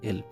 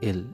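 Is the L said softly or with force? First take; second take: softly; softly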